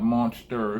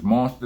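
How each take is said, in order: First: The word ends with an 'er' sound. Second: The word ends with an open 'ah' sound. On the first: The speaker calls it wrong. "not an E R" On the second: The speaker calls it right. "It's A"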